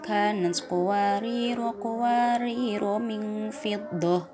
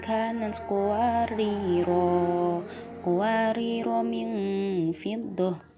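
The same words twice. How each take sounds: First: It runs on without stopping, both vowels short. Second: It stops after the first word, with a long final vowel. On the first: The two verses are joined together. "diwasolkan ... Roknya sama-sama dibaca pendek" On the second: The first verse is ended before the next begins. "jika berhenti pada qawariro ayat lima belas maka roknya dibaca panjang"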